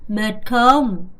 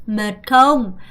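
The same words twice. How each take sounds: The two takes are said the same way.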